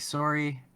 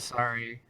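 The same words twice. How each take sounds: First: It is said with a Canadian accent. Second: It is said with a standard American accent.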